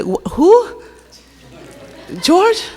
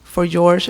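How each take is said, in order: First: High, puzzled rising question; imitating a puzzled friend; confused. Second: Said in the usual way. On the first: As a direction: mimic a baffled friend, pitch way up. Christy confused by the accent. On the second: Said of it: "Christy, that's for George".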